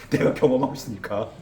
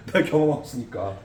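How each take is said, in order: First: Answering through a real laugh; real laugh breaking into the words. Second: Said in the usual way. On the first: Real, not acted. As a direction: chuckle out the punchline. Laughs while answering own question.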